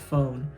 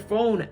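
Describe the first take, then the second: First: It is said in his usual accent. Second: It is said in a Minnesotan accent.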